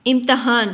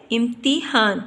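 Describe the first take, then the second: First: "امتحان" as imtahan, a after the t; wrong pronunciation. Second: "امتحان" as imtihan, i after the t; correct pronunciation. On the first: Teacher shows students the faulty reading, "امتحان" said as im-ta-han. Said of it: "یہ غلط تلفظ ہے". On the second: Teacher gives students the correct reading, "امتحان" said as im-ti-han. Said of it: "تے کے نیچے ہم نے زیر". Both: Shown as a demonstration.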